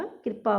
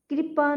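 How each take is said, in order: First: कृपा with a rolled vocalic r, "kr-paa"; barely any vowel between k and p in कृपा; correct कृपा. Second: कृपा with a clear i, "kri-paa", higher; mispronounced कृपा. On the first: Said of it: "होता है". (कृपा में ऋ की ध्वनि) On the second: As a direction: put a full i after kr in कृपा. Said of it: "नहीं होता". (कृपा में साफ़ इ, "क्रिपा") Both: Shown as a demonstration.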